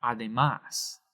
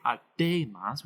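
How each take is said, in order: First: "Además" with the last syllable MÁS stressed; stress on final syllable. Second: "A de mas" with the middle syllable DE stressed; wrong stress on DE. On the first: Teacher giving the wanted form, Además stressed on MÁS. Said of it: "We want to say". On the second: Teacher showing what we don't say, A de mas stressed on DE. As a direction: put the weight on DE in A de mas. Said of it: "We don't want to say". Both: Shown as a demonstration.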